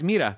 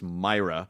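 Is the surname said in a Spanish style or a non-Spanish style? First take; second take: Spanish style; non-Spanish. First: The surname is given a Spanish-style pronunciation. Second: The surname is given its non-Spanish pronunciation. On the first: The speaker calls it wrong. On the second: This is how the name's owner says it. The speaker calls it right. "his last name is pronounced Myra"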